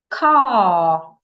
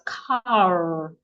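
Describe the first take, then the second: First: It is said in a non-American accent. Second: It is said in an American accent.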